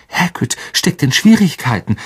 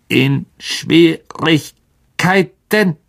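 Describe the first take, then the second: First: A touch breathless; short of breath. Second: High, very slow, syllables broken apart; clicking spider, slightly concerned. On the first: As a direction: say it through laboured breath. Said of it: "sein Atem rasselte". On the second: The old spider hearing of a friend's trouble, concerned clicking voice. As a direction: click out the question with a hint of worry. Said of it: "ein wenig Besorgnis aus". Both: A narrator's reading.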